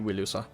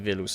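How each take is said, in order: First: The word begins with a W sound. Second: The word begins with a V sound. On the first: The speaker calls it right. "it'd be Wilusa" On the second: The speaker calls it wrong. "that wouldn't be Vilusa"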